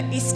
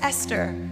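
First: The name is said in a New Zealand accent. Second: The name is said in an American accent. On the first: "And I said, no" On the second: "I would have to introduce myself with an American accent"

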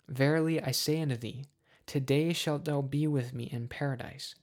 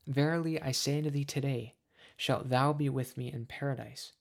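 First: The pause comes before the word today. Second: The pause comes after the word today. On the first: Paradise will happen on that same day. The speaker calls it wrong. "this comma has been placed in the wrong place" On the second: The promise is made today, paradise comes later. The speaker calls it right. "The comma should be after today"

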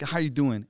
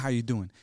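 First: It is said slowly and earnestly, with real feeling. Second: It is said quickly and casually, without feeling. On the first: The asker truly wants to know. The speaker calls it right. "And then you really mean it" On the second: The question is a routine greeting. The speaker calls it wrong. "we don't say"

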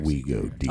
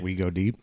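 First: It is said in a put-on sexy voice. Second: It is said in a plain, ordinary voice.

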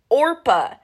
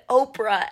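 First: The r sound comes before the p. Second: The r sound comes after the p. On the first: The speaker calls it right. "instead of Orpah" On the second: The speaker calls it wrong. "I mispronounced it. I said Orpah"

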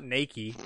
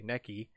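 First: It sounds like the English word 'naked'. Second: It does not sound like 'naked'. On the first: The speaker calls it wrong. "not Nikkei, like naked" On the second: The speaker calls it right. "but like Nikkei"

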